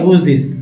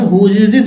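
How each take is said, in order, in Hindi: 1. 'is' शब्द छोटा होकर 'who's' में जुड़ जाता है। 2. 'is' शब्द अलग शब्द की तरह पूरा बोला जाता है। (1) "हुज बोलेंगे ऐसे होता है" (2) "फुल फॉर्म में"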